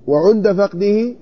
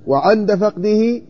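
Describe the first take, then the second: First: "وعند" said slowly as wa-ʿunda, u on the ʿayn; slow "وعند فقده" with wa-ʿunda; "وعند" with a damma on the ʿayn, rising. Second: "وعند" said slowly as wa-ʿanda, open a on the ʿayn; slow "وعند فقده" with wa-ʿanda; "وعند" with a fatha on the ʿayn, rising. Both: Shown as a demonstration. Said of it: "وعند مثلث العين".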